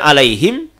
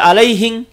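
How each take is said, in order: First: The word ends with an m sound. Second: The word ends with an ng sound. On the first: The speaker calls it right. "harusnya alaihim" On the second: The speaker calls it wrong. "dia baca alaihing"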